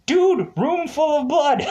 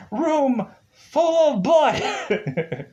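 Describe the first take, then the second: First: High-pitched, laughing disbelief; mock incredulous outburst. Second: "Room full of blood" high and drawn out; mock incredulous emphasis. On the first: Pointing out the plot hole to forgetful characters, high mock disbelief. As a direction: burst out high, breaking into a laugh. Mock exasperation at forgotten blood samples. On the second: Hammering home the forgotten samples, "Room full of blood" slow and high. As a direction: stretch "Room full of blood" slowly, high-pitched, then laugh. Repeats it slowly for comic emphasis.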